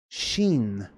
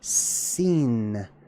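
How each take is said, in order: First: The word begins with an sh sound. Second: The word begins with an s sound. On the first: "pronounced with an sh" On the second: "just pronounced with the regular old s sound"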